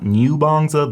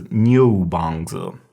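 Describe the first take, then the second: First: "Niubangzi" starting plain nyoo, no o; mispronounced demo. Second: "Niubangzi" starting nyoh, hidden o sounded; correct pronunciation demo. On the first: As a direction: say "Niubangzi" with a nyoo first syllable. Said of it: "So this is not". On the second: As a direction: slowly say "Niubangzi" with nyoh up front. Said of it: "this is Niubangzi". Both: Shown as a demonstration.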